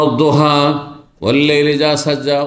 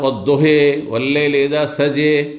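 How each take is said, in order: First: The final vowels are an open 'a' sound. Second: The final vowels lean toward an 'e' sound. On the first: "একবার পড়বেন অদ্দোহা" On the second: "আর একবার দোহে সাজে"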